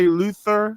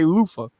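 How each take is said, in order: First: The middle consonant is a th sound. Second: The middle consonant is an f sound. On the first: The speaker calls it wrong. "we don't say Luther" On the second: The speaker calls it right. "We say Lufa. L O O F A"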